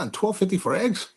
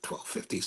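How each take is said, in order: First: Rising, incredulous question; mock disbelief. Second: Breath-only disbelief, no voice; shocked whisper. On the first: Narrator voicing his own disbelief at the egg price. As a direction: ask it like it's absurd. Retelling his shocked reaction. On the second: Retold or imitated. Narrator reliving his shock at the egg price, whispered. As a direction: whisper it like you can't believe it.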